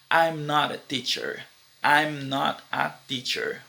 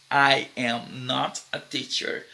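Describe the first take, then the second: First: "I'm" fused into one syllable before "not"; contraction I'm not. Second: "I am not" slowly, each word whole; full form I am not. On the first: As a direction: run "I'm not" together smoothly. (contração "I'm not", ligada) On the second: (forma completa "I am not", pausada) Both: Shown as a demonstration.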